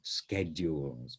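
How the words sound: It is said with an American pronunciation. "or in American schedules"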